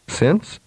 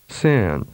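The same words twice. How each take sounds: First: The vowel is held briefly. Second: The vowel is prolonged. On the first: "with a short vowel duration first" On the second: "and then with a longer duration"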